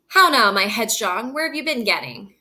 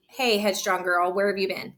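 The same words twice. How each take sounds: First: A loud, stern father reading Shakespeare aloud. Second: Said in the usual way. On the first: Acted.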